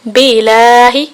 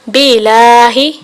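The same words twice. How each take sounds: First: The l sound is short and single. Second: The l sound is short and single.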